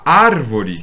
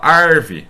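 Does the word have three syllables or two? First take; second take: three; two. First: It has three syllables, stressed on the first. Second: It has two syllables, stressed on the first. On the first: "que é uma proparoxítona"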